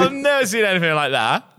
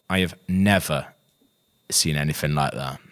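First: The voice sounds excited and amazed. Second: The voice sounds flat and unenthusiastic. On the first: The person loved the show. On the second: The person did not enjoy the show.

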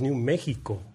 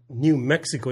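First: The name is said with a Spanish pronunciation. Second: The name is said with an English pronunciation. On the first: The speaker calls it right. "it's New Mexico" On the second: The speaker calls it wrong. "this is not New Mexico"

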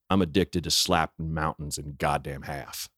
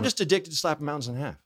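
First: It is said in an intense, tough way. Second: It is said casually, thrown away.

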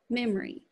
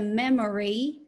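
First: The middle vowel is weakened or dropped. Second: The middle vowel is said fully. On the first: "it might become memory" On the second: "Instead of memory"

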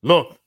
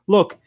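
First: It is said in a put-on manly voice. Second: It is said in his normal voice.

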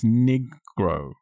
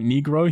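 First: The first vowel sounds like 'eye'. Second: The first vowel sounds like 'ee'. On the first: "he pronounces it with definitely a hard I" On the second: "not like Negro"

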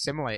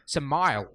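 First: The final E is pronounced. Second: The final E is silent. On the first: The speaker calls it right. "it's pronounced simile" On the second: The speaker calls it wrong. "She went"

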